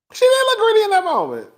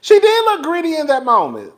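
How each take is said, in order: First: Pitched higher, pressing the point on "She"; insistent repeat. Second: Said in the usual way. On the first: Shown as a demonstration. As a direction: say it again, insisting it's true.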